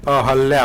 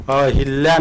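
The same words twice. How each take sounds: First: अहल्या with no i after ह and a doubled l, a-hal-lya; teacher lands the right form अहल्या, lingering on the ल; correct spelling said aloud. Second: अहिल्या with a clear short i after ह, a-hi-lya; teacher sounds out the wrong form अहिल्या, every syllable clear; wrong spelling said aloud. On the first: Teacher correcting students, pronouncing अहल्या with the doubled ल. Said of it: "अहल्या होता है". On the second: Teacher showing students the wrong form, sounding out अहिल्या. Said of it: "अहिल्या नहीं होता". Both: Shown as a demonstration.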